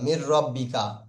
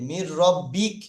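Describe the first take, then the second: First: The final syllable ends with a vowel sound. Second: The final sound is a consonant without vowel. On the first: The speaker calls it wrong. "মির রব্বিকা পড়েছেন তো এতদিন।" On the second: The speaker calls it right. "এবারে আসলটা কি হবে?"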